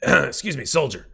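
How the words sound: It is said in Hyams' character voice.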